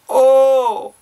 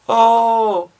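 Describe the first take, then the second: First: The cry sounds fully committed and emotional. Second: The cry sounds weak and half-hearted. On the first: The speaker calls it right. "We really need to sell it as if you're an actor" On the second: The speaker calls it wrong. "under engaging your voice"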